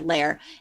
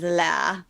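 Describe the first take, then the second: First: It is said American-style, with a final r. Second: It is said British-style, with no final r. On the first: "it's the L A I R" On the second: "I love the way Mary Berry says layers, and she says laz"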